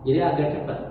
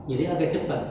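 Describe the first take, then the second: Both takes have the same delivery.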